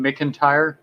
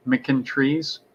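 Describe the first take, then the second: First: McIntyre with a clear tire ending; McIntyre said "mick-in-tire". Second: McIntrees with a trees ending; McIntrees said "mick-in-trees". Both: Shown as a demonstration.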